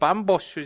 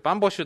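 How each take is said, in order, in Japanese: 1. 最後の音の前の子音は、長いです。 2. 最後の音の前の子音は、短いです。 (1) "バンボシはボの後に小さいつは入らないよ、バンボッシュじゃなくて" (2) "バンボッシュだよ"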